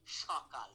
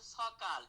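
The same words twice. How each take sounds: First: সকাল said as shokal, with the palatal sh; সকাল with a clear sh at the start; sh sound at the start. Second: Said in the usual way. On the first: Shown as a demonstration. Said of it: "তালব্য স দিয়ে উচ্চারণ করি". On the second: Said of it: "কিন্তু উচ্চারণ করি কি?".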